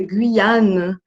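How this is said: The name is said with French pronunciation. "em francês"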